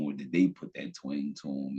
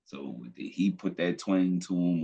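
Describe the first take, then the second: First: "they" punched as the contrast word; stress on they. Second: "he" punched as the key word; stress on he. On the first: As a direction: hit "they" to flip the blame. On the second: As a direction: lean hard on "he", as if accusing him. Contrasts he versus they. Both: Acted.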